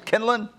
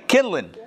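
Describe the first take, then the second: First: Put-on "Kindling" in a light Southern accent, the ending said as "kindlin'"; Southern accent try. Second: Said in the usual way. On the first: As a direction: try "Kindling" the way a Southerner might say it, rising like a question. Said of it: "if that's how they say it in the South". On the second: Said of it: "Anyway, kindling".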